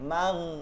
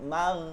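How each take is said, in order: The two takes are said the same way.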